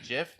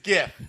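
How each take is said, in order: First: The word begins with a soft G sound. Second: The word begins with a hard G sound. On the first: This is how the creator says it. "the creator said it's pronounced GIF" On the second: This matches the first word of the acronym. "because he used the hard G word in graphics, ... so it is GIF"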